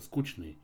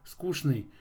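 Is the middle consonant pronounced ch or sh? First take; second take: ch; sh. First: The middle consonant sounds like ch. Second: The middle consonant sounds like sh. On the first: This is how the word is said today. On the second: This is how the word was said 200 years ago.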